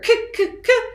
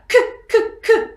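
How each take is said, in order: First: The sounds are repeated at a quicker pace. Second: The sounds are repeated at a moderate pace.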